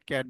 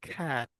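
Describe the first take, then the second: First: The first consonant is said without a breath puff. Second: The first consonant is said with a breath puff. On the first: The speaker calls it wrong. "আমরা ক্যাট বলি" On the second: The speaker calls it right. "But এটাকে আমাদের কি বলতে হবে, খ্যাট"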